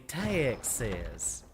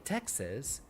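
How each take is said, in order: First: It is said in a stereotypical Texan accent. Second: It is said in a plain, neutral accent. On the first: "which is probably how a more stereotypical Texan accent would, pre would pronounce it" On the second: "I could say Texas"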